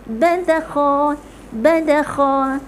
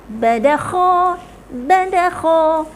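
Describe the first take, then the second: Both takes have the same delivery.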